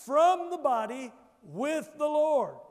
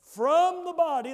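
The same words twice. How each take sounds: First: "from the body" and "with the Lord" lifted and louder, "Lord" drawn out slowly; stress the phrases. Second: "From" hit high and loud, falling off on "the body"; stress on from. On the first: Preacher leading the church to repeat the phrases, stressed. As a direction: lean on "from" and "with" for the church to echo. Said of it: "say it, church". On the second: Preacher stressing the preposition for the church, loud. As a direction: punch the word "From". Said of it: "Two powerful prepositional phrases". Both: Shown as a demonstration.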